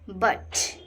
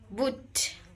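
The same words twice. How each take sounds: First: The vowel is an open 'uh' sound. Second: The vowel sounds like the 'oo' in put. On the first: The speaker calls it right. "You sound like a A" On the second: The speaker calls it wrong. "Many students say both words same"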